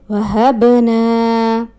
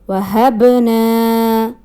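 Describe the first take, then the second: Both takes have the same delivery.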